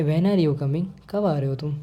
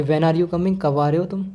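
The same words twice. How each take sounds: First: Indifferent question, voice held down; falling tone, lowered voice. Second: Rising-tone question "When are you coming"; slightly louder, interested. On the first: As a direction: say "When are you coming" without interest, letting it drop. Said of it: "हम धीरे आवाज़ में बोलेंगे". (धीरे आवाज़ में, बेपरवाह) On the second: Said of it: "थोड़ी तेज़ आवाज़ में". (थोड़ी तेज़ आवाज़ में) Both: Shown as a demonstration.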